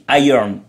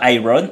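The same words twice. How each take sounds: First: The ending is barely heard, just an n. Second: The ending is said fully, like 'I-ron'. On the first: The speaker calls it right. "c'est le son I R qui fait le iron, et le O N, il se prononce à peine" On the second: The speaker calls it wrong. "on dit pas iron"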